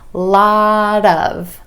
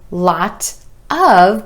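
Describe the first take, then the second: First: The t is a flap linked onto of. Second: The t is clear and the words are separate.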